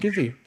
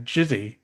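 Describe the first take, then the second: First: The name starts with a hard G sound. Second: The name starts with a soft J sound. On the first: The speaker calls it right. "excited you pronounced my last name right" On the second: The speaker calls it wrong. "Do they pronounce it as Jizzy?"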